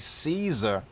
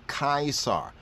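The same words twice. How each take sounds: First: The name begins with a soft S sound. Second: The name begins with a hard K sound. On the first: This is the usual form people are taught to say. The speaker calls it wrong. "why do they try to cover it up by having us say Caesar?" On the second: This is the older form linked to Kaiser. The speaker calls it right. "in the Greek times, he was known as Caesar. ... we start to have the right pronunciation of it"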